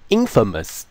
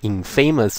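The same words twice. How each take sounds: First: The middle vowel is weakened and reduced. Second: The middle vowel is full, as in famous. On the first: The speaker calls it right. "每一个的母音都会弱化" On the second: The speaker calls it wrong. "这个字它不是念infamous 哦"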